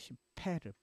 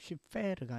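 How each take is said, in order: First: The middle consonant is a p sound. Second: The middle consonant is an f sound. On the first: The speaker calls it right. "P가 맞고요. F가 아니죠" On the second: The speaker calls it wrong. "그 쉽페르가 아니고"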